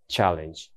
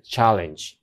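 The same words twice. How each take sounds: First: Said in the usual way. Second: チャレンジのチャを強く; 頭を押して言う; 先頭に強勢. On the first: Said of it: "チャレンジって言いそうだよね". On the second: Shown as a demonstration. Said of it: "戦闘だから". (第一音節に強勢)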